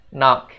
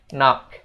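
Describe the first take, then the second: Both takes have the same delivery.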